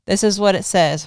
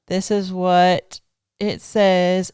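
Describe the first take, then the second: First: Said in the usual way. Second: "This is what it says" drawn out slow, each word weighted; slow it right down, like unveiling evidence; slow dramatic reveal. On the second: Shown as a demonstration. Wife reading out her husband's post, slow and dramatic.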